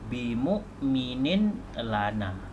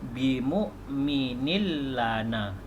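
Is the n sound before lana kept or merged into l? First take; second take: kept; merged. First: A clear n sound is heard before lana. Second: The n merges into a doubled l sound. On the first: "Ini bunyi asal dia" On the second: "Jadi bacaannya"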